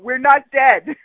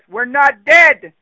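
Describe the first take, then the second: First: It is said in the speaker's own plain voice. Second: It is said in a put-on nagging mother voice.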